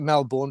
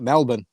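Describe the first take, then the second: First: It is said the local English way. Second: It is said the Australian way. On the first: It names the English village near Derby. "we call it Melbourne because of that little hole near Derby" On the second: It names the Australian city. "now the Aussies call it Melbourne"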